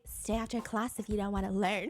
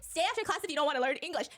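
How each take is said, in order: First: It is said in a flirty, sexy tone. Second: It is said in a stern, scolding tone.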